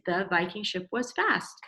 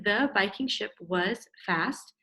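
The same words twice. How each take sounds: First: Said in the usual way. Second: The Viking ship was fast, slow and word by word; slow sounding-out read. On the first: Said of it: "and adult writing is". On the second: Shown as a demonstration. Teacher reading the child's kid writing back, slowly. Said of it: "Your kid writing".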